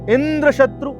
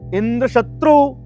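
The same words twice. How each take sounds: First: The stress falls on Indra. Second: The stress falls on शत्रु.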